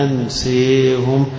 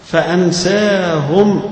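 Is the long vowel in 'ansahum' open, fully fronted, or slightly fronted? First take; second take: fully fronted; open. First: The long vowel is bent fully toward e. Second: The long vowel is an open a sound.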